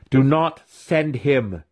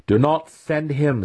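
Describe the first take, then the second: First: Slow, higher growl with "Do" pressed. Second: Higher, slow, leaning on NOT; "not" pressed hard and drawn out, slow plea; emphatic plea. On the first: Weapon master growling at Matron Malice. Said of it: "he growled". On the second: Weapon master pleading with Matron, stressing "not". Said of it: "argued as emphatically as he dared". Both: A narrator's reading.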